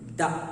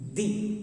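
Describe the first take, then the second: First: The vowel is a short 'uh' sound. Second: The vowel is a long 'ee' sound. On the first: It comes before a word starting with a consonant. "it is pronounced before before consonant letter" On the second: It comes before a word starting with a vowel. "It is pronounced before vowel letter"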